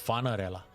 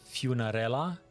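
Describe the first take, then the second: First: The name does not begin like funeral. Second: The name begins like the word funeral. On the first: "but I think it's Funerella" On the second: "as from funeral"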